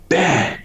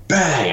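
First: Sharp high "bang" like a blow landing; imitated bang. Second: Imitated bang. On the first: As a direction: punch "bang" out high and quick like a hit. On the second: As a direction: hit "bang" again high, like another blow. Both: Imitating hitting the gator.

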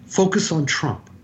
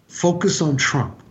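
No difference in how they are said.

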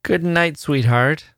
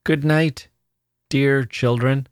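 First: Higher, absent-minded goodnight; vague. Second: Higher and gentler, conciliating goodnight; more tender. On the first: Charlie to Honoria, vague and distracted. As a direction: drift through it, half elsewhere. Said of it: "he said vaguely". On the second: Charlie to the children, trying for tenderness. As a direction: soften it to make peace. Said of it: "trying to make his voice more tender". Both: A narrator's reading.

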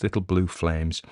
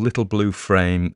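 First: Little Blue Flames with a clear L in Flames; corrected title. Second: Little Blue Frame with an R, said as Frame; Frame, slipping the R in place of the L; the slip Frame, with an R sound; misread title. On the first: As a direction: set it right: Flames, L not R. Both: Real, not acted. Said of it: "not Frames".

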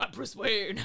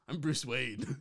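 First: Louder mock Batman growl; Batman stage voice. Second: Batman stage voice. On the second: Acted. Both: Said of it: "my stage voice".

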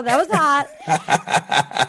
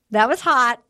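First: Very slow, laughing "That was hot"; slow laughing drawl. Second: Said in the usual way. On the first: Retold or imitated. Drawn-out final repeat.

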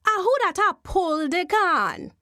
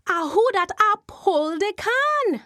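First: Eerie call, higher; Jumbie voice. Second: The eerie call higher and louder; Jumbie voice again. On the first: Jumbie spirit calling to the wife pulling corn. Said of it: "and then a voice say". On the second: Jumbie spirit calling to the wife a second time. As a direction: call out again, more insistent. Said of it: "Missus Lanneman turned around". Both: Acted.

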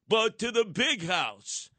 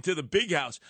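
First: "big house" stretched slow and high; slow, higher delivery landing hard on "big house"; drawn-out punchline. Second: Said in the usual way. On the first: Real, not acted. Host predicts jail for the commissioner, drawn-out punchline.

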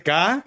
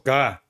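First: La "K" en su tono original, más arriba. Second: La "K" un tono abajo, más grave. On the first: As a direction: di "K" en el tono de siempre. ("K" en el tono alto original) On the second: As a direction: baja el tono en "K". ("K" dicha más grave) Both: Shown as a demonstration. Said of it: "un tono abajo".

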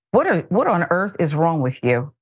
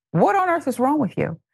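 First: Said in the usual way. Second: What on earth is wrong with you said high and incredulous; exasperated disbelief. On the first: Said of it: "repeated exasperated question". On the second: Real, not acted. Host to Haley, high incredulous outrage. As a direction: pitch jumps up high in disbelief. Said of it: "repeated louder exasperated question".

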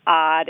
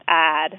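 First: Said in the usual way. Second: "odd" pushed forward, almost "add"; Chicago-style "odd", vowel leaning toward the a of "add"; fronted vowel in odd. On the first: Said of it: "It's not odd". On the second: Shown as a demonstration. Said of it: "It's really a fronted vowel".

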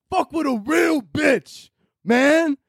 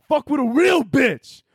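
First: Much higher, slow hollering bro voice; shouted bro boast. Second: Much higher, slower, strutting bro voice; hyped-up bro boast. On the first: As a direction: yell it like a gym bro crowing. Hyping himself after gym compliment. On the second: Bragging to himself after the gym compliment, cocky high bro boast. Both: Retold or imitated.

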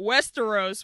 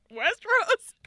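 First: Said in the usual way. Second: High, loud questioning squeal; mock-bewildered, pitched way up; incredulous. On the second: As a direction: blurt the name in baffled disbelief. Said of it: "but I was like".

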